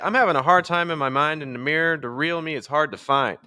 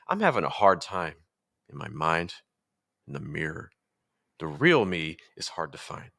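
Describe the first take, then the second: First: It is said on one flat pitch. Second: It is said with changing pitch levels.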